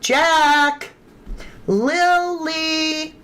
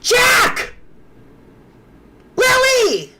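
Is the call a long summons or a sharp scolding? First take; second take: long summons; sharp scolding. First: The names are drawn out to carry far. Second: The names are short, sharp and alarmed. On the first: The children are being called home. "That is calling for the children. ... You extend it" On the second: The children have done something wrong. "if Jack was getting in the chickens, it'd be"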